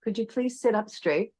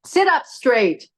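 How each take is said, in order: First: Soft, lilting polite request; gentle request. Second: High, drawn-out tart command. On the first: Yoga teacher showing her class the kinder tone, soft and polite. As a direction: ask softly and kindly, pitched a little up. Gentle take against the tart one. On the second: Yoga teacher demonstrating a bad tone to her class, tart command. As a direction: order it tartly, falling at the end. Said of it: "about a tart tone". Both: Shown as a demonstration.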